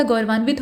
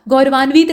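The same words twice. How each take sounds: First: गौरवान्वित said 'gaurvaan-vit'; गौरवान्वित with short इ. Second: गौरवान्वित said 'gaurvaan-veet'; गौरवान्वित with long ई. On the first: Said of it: "गौरवान्वित होता है". (गौरवान्वित में 'वि' ह्रस्व बोलें) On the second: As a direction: stretch the वि of गौरवान्वित to वी. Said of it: "गौरवान्वित नहीं होता". (गौरवान्वित को 'गौरवान्वीत' बोलें) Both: Shown as a demonstration.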